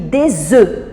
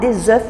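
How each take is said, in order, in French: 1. Le son f final ne se prononce pas. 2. Le son f final se prononce. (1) "je dis des œufs. Donc, je n'entends pas la consonne finale" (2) "je ne dis pas des œufs"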